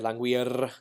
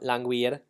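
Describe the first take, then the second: First: The R is rolled with several taps. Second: The R is a single quick flap. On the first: The speaker calls it wrong. "you probably don't want to roll it. That's a little too much work" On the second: The speaker calls it right. "just one flip on the alveolar ridge right behind your teeth"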